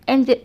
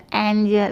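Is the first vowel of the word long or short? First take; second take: short; long. First: The first vowel is clipped short and abrupt. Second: The first vowel is drawn out long. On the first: The speaker calls it wrong. "एकदम एंजल ऐसे नहीं पढ़ सकता" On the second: The speaker calls it right. "एंजल इस तरीके से पढ़ा जाता है"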